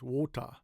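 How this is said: It is said in a British accent. "like British English, they pronounce it more like Japanese wota"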